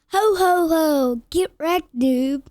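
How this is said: It is said in a full, loud voice.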